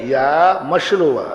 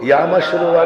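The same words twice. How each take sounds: First: "या मस्य लोपा" slowed, with "या" held long; demonstrated reading. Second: "या मस्य लोपा" run briskly together, without a long "या"; wrong reading. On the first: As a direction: draw out "या", then give "मस्य लोपा". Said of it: "गलत पढ़ दिया". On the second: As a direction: show the misreading of "या मस्य लोपा" with "या" kept short. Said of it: "नहीं पढ़ना". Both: Shown as a demonstration.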